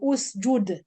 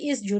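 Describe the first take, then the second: First: The word begins with a u vowel. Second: The word begins with an i vowel. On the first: The speaker calls it right. "It's u because the third the letter will be su-" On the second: The speaker calls it wrong. "I don't say isjud"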